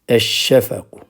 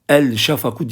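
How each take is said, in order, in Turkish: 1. L, çift ş sesine karışır. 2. Tanımlıktaki l açıkça okunur. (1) "Onun için lamlar okunmuyor" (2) "El şafaku diyemeyiz"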